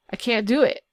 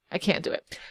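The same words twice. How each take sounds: First: Said in the usual way. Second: Much softer, breathy whisper; whispered aside. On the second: Shown as a demonstration. Youtuber muttering to herself about the builder, whispering. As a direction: drop to a whisper to yourself. Whispered repeat of the same line.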